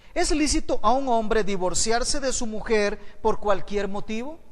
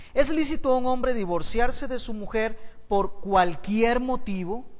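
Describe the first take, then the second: No difference in how they are said.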